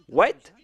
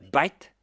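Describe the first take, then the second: First: It begins with a W sound. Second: It begins with a B sound, Indian-style.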